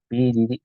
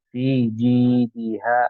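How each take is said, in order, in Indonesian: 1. Vokal pada ji pendek. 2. Vokal pada ji panjang. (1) "jangan fi ji di" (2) "si ji-nya panjang itu harokat"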